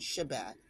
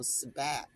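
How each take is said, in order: First: The word begins with an sh sound. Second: The word begins with a plain s sound. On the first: "rather than Shabbat" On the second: "we would say, you know, Sabbat"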